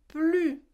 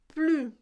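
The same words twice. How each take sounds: No difference in how they are said.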